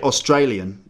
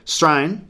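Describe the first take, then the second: First: The word is said in full, all syllables. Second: The word is clipped to a short form. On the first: The speaker calls it wrong. "you don't say Australian" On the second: The speaker calls it right. "You say Strain"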